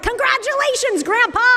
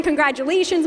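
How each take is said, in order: First: High, bright-eyed congratulating shout; excited cheer. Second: Said in the usual way. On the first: Retold or imitated. Bagel store staff cheering the father, high and excited. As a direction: greet the new grandpa with a squeal of joy. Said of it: "and they're like". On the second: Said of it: "calling them and saying".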